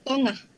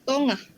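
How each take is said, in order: First: It is pronounced in Negeri Sembilan dialect. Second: It is pronounced in Negeri Sembilan dialect.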